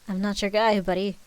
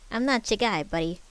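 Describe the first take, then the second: First: It is said without the put-on rat voice. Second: It is said in a put-on rat voice. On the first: The speaker calls it wrong. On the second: The speaker calls it right.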